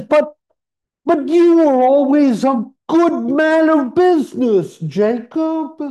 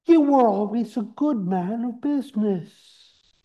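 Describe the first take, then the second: First: Put-on high, loud stammering old miser; pleading Scrooge. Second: Scrooge voice. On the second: Acted. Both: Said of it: "Scrooge says".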